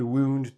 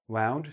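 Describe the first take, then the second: First: The vowel sounds like the one in 'tuned'. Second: The vowel sounds like the one in 'sound'. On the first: It means to injure someone. "wound, tuned" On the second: It is the past tense of wind. "The past tense is wound, sound"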